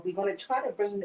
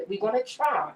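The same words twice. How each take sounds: First: Said in the usual way. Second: "try" leaned on, pitch raised then falling; stress on try. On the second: Real, not acted. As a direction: land firmly on "try" and stop there. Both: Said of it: "put emphasis on the word try".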